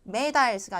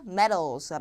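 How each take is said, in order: First: The middle consonant is a hard D. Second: The middle consonant is a soft flap. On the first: The speaker calls it wrong. "medals가 아니라" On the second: The speaker calls it right. "D도 이것도 자, 유마돼서 자, 리을로 바뀝니다"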